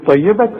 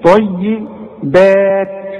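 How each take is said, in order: First: The vowel after the b is short. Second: The vowel after the b is long. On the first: The speaker calls it wrong. "لو تبص هنقول ايه طيبات، مش كده؟" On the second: The speaker calls it right. "انما دي طيبات عليها الالف، مدلي البه ده الف كاملة"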